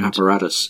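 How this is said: The word is said with an American accent. "in an American pronunciation"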